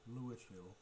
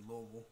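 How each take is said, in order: First: It is said the way outsiders say it. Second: It is said the local Kentucky way. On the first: The speaker is not from Kentucky. "us Kentuckians, for the most part, don't pronounce it like that" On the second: The speaker is from Kentucky. "I said Louisville"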